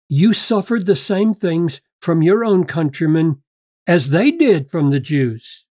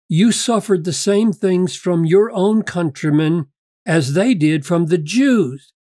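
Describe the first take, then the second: First: The word 'they' carries strong emphasis. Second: The word 'they' carries no special emphasis. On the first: The Judean Christians suffered just as the readers did. "If you put the emphasis on they here, it sounds very different" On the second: "they read it like this"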